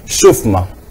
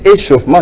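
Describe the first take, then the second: First: The opening vowel sound is dropped. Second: The opening vowel sound is pronounced. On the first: The speaker calls it wrong. "nous disons chauffement" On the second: The speaker calls it right. "à la place des échauffements"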